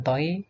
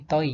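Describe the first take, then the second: First: "toi" as the faulty reading to avoid; wrong reading. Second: "toi" as the careful model after the faulty one; corrected reading. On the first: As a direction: show the mistaken "toi" for contrast. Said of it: "bukan toi, tapi toi". (contoh "toi" yang keliru) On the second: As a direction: give the proper, careful "toi". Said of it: "tapi toi". ("toi" yang dilafalkan benar dan cermat) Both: Shown as a demonstration.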